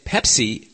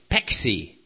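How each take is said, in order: First: The middle sounds like 'ps'. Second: The middle sounds like 'x'. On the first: The usual way of saying it. "Instead of saying Pepsi" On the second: The speaker learned the word on the streets and was deported. "they'll say Pexi"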